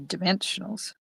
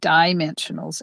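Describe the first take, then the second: First: The stress is on a later syllable. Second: The stress is on the first syllable. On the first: The speaker calls it right. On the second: The speaker calls it wrong.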